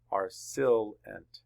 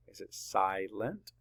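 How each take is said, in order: First: SILENT mispronounced SILL-ent, short "i"; closed syllable. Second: SILENT slowly split SY-lent, long "i"; open syllable. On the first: Teacher offers class the wrong split, short-vowel SILENT. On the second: Teacher asks where the line goes, long-vowel SILENT. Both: Shown as a demonstration. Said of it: "That's an open syllable".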